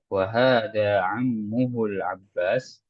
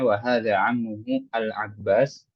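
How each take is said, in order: First: The article is joined smoothly to the previous word. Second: The article is said apart from the previous word. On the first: The speaker calls it right. "kita langsung masukkan ke alif lam ya" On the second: The speaker calls it wrong. "mungkin ada beberapa orang yang bacanya"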